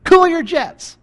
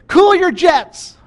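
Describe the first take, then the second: First: Cool your jets, loud and high; emphatic preacher repeat; firm repeat. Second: High, loud, slow mock parent; hammed-up parent telling kids to calm down; parent scolding kids. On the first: Shown as a demonstration. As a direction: say it like a firm reminder. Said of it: "What does that mean". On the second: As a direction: stretch out cool like a parent. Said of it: "told your kids".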